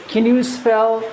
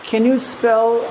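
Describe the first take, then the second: Both takes have the same delivery.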